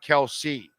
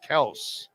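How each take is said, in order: First: The name is said with two syllables. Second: The name is said as a single syllable. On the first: This is how other people said the name. The speaker calls it wrong. "not Kelsey" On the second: This is how the family name really sounds. The speaker calls it right. "it was Kels"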